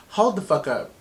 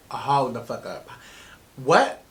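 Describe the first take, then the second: First: Mildly startled retold reaction; quick double take at usual volume. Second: Low, slow, drawn-out disbelief; stunned disbelief. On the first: Woman retelling her first look at the map, mildly startled. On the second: Retold or imitated. Woman at the big turn of her story, stunned.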